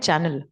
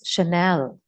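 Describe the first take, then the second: First: It starts with a hard 'ch' sound. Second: It starts with a soft 'sh' sound. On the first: The speaker calls it wrong. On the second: The speaker calls it right.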